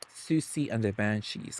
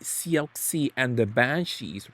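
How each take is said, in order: First: The name is said like 'Susie'. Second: The name is said with an 'ox' sound. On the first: The speaker calls it right. "it took me years to find out it was Susie" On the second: The speaker calls it wrong. "thought I'm like it can be Sioxi"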